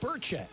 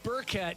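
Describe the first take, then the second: First: The middle consonant is a soft ch sound. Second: The middle consonant is a hard k sound.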